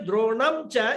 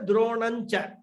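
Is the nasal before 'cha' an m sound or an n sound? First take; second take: m sound; n sound. First: The nasal before 'cha' is an m sound. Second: The nasal before 'cha' is an n sound. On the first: This adds half a beat to the verse meter. "even if you say Dronamcha, it's not wrong" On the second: This keeps the verse meter unchanged. "convert that Anuswara into a Nakara and pronounce it as Dronancha"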